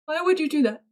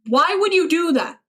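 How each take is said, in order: First: Said in the usual way. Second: Higher, appalled question. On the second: Pretend. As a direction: ask it in mock outrage. Shocked reply to chat message.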